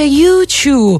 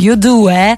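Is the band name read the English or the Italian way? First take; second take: English; Italian. First: The name is read with English letter and number sounds. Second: The name is read with Italian letter and number sounds. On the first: This is the original, correct way of saying it. "Si dice YouTube, effettivamente" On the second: This is the usual local way of saying it. "come noi siamo abituati qui a chiamarli"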